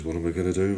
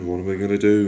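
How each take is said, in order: First: Said in the usual way. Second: Louder, rising panic on the repeat; panicked cry. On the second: Acted. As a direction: cry it out in alarm. Jack hurt, panicking.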